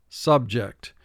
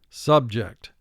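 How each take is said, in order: The two takes are said the same way.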